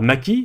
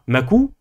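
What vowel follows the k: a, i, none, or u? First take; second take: i; u. First: The k is followed by an i vowel. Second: The k is followed by an u vowel. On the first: "vous ne dites pas maki" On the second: "Vous ne dites pas makou"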